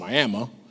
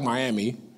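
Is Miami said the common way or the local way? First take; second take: local; common. First: The name is said the local way. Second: The name is said the common, familiar way. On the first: The speaker calls it right. "you gotta pronounce it Miami, because that's how they pronounce it" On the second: The speaker calls it wrong. "spelled like Miami"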